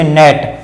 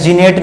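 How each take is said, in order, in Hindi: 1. इस शब्द की शुरुआत n की आवाज़ से होती है। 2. इस शब्द की शुरुआत g की आवाज़ से होती है। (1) "इसे पढ़ते नेट" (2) "जीनेट नहीं"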